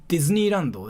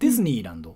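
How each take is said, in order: First: The word is said with Japanese pronunciation. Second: The word is said with English-like pronunciation. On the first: This is how a native speaker would say it. The speaker calls it right. "instead of saying like" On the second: It gives away a foreign speaker. The speaker calls it wrong. "she pronounced in a foreign way"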